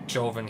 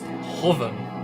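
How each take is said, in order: First: The name begins with a J sound. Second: The name begins with an H sound. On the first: The speaker calls it wrong. "than a J sound" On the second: The speaker calls it right. "it's more like an H sound"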